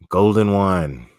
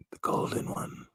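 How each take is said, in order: First: Said in the usual way. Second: Hushed, voiceless whisper; whispered echo. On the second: Pretend. Echoes the name in a whisper.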